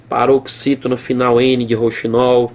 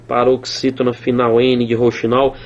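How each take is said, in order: Both takes have the same delivery.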